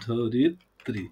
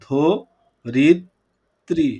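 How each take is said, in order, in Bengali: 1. শব্দটি স্বাভাবিক গতিতে সাবলীলভাবে বলা হচ্ছে। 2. শব্দটি ধীরে ধীরে, অক্ষরে অক্ষরে বলা হচ্ছে।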